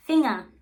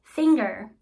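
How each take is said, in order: First: Finger said the German way, no g and an open ending. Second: Finger said the English way with a hard g and r ending. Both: Shown as a demonstration. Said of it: "For instance".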